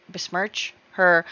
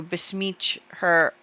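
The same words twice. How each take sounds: First: Said in the usual way. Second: "besmirch" slipped into "besmeech", no r; mispronounced. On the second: Real, not acted. Slip, corrected straight after.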